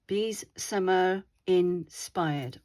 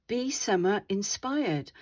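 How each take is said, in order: First: Bees said slowly and clearly, buzzing the z; slow and careful, lean on Bees; stress on Bees. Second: Said in the usual way. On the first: Shown as a demonstration. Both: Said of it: "which is hashtag bees".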